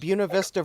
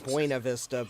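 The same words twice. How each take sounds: First: It is said with the local Virginia pronunciation. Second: It is said with a more Spanish-like pronunciation. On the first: This is how locals say the place name. "that's the way they pronounce it here in Virginia" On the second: This is how the name looks like it should be said. "should probably be Buena Vista"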